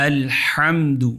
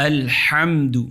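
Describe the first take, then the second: Both takes have the same delivery.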